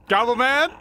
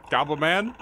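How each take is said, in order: First: Higher, louder questioning call. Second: Said in the usual way. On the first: Real, not acted. Player searching for Goblin Man, calling out. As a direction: call out with a big upward lilt.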